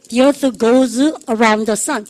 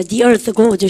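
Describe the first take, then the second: First: Each word dragged out very slowly; slow choral model. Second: Said in the usual way. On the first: Shown as a demonstration. Teacher leads the class in reciting the rule sentence, very slow. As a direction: drill pace, word by word. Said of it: "시작". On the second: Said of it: "해보세요".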